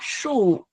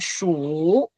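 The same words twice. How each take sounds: First: The word has a sharp falling tone. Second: The word has a low dipping tone. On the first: It means number, as in numerals. "Sủ tử là thanh bốn nhá" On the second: It means to count. "còn ở trong trường hợp này chúng ta sẽ đọc là sủ"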